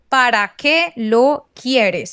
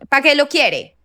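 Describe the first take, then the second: First: The final s sound is fully pronounced. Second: The final s sound is dropped. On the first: It reflects the speaker's own Colombian Spanish. "I would pronounce the whole thing" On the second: It imitates Caribbean coastal Spanish. "they would say"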